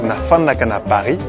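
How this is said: It is said with an f, Kinshasa style.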